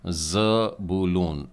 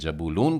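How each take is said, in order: First: The name begins with a z sound. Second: The name begins with a j sound. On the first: This is the Hebrew way of saying it. "इब्री उच्चारण ज़बूलून, ज जाइन का ज" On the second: This is the usual Hindi way of saying it. "इसे हम लोग हिंदी में जबूलून कहते हैं"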